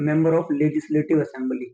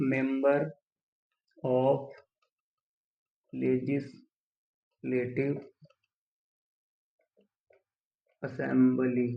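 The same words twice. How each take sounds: First: Said in the usual way. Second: Very slow, long gaps between words; dictating while writing. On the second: Shown as a demonstration. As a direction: break it into pieces for note-takers. Writing the term out while saying it. (लिखते हुए बहुत धीरे, रुक-रुक कर)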